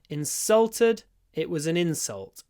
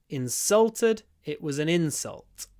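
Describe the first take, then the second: The two takes are said the same way.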